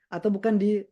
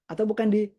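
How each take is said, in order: No difference in how they are said.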